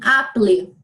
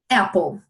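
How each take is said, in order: First: It is pronounced with Portuguese spelling-based sounds. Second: It is pronounced with English sounds. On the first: The word was read from its spelling. The speaker calls it wrong. "Em português, essa palavra se lê assim" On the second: The word was learned by ear. The speaker calls it right. "você simplesmente disse para ele apple"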